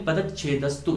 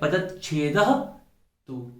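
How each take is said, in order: First: It is said as one unbroken word. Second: A break comes before the final "tu". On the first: "या तो हम इसे बोले पदच्छेदस्तु" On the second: "तो हमें बोलना पड़ेगा"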